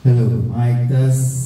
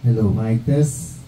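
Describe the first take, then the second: First: The voice is louder, with an echo effect. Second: The voice is dry, with no echo effect. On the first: The speaker calls it right. "Buksan mo, yan" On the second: The speaker calls it wrong. "Pag walang effect, pangit oh"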